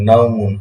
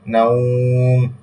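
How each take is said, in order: First: The word ends with a full 'mun' sound. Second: The word ends on a bare 'm' sound. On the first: The reading continues without stopping. "মিম দুই পেশ মুন" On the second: The reader stops on this word. "ওয়াকফ করতে যান তাহলে হবে নাউম"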